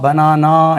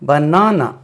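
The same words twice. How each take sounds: First: The vowels are all long open 'aa' sounds. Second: The vowels are not all long 'aa' sounds. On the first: The speaker calls it wrong. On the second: The speaker calls it right.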